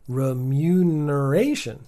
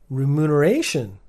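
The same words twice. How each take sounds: First: The second syllable has a y sound. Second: The second syllable has no y sound. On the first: The speaker calls it right. "I got a good job" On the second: The speaker calls it wrong. "you may have missed the Y in mute"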